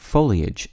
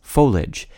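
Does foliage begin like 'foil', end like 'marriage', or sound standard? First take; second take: standard; marriage-like. First: The ending is two syllables, ee-ij. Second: The ending is one syllable, like marriage. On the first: "the word foliage" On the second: "consistent with the pronunciation of the I-A-G-E ending in words like marriage and carriage"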